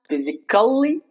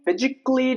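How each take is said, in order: First: The a in the ending is sounded. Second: The a in the ending is silent. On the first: The speaker calls it wrong. "It's not pronounced physically, that's wrong" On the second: The speaker calls it right. "It's logically, physically"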